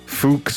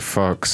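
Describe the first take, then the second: First: The name is said with a fancy, foreign-sounding pronunciation. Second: The name is said plainly, like the word fox. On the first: The speaker calls it wrong. "like try and make it sound fancy" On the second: The speaker calls it right. "The right way is Fox"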